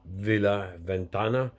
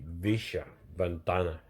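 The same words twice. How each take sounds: First: The double L in Villa is not 'sh'. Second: The double L in Villa sounds like 'sh'.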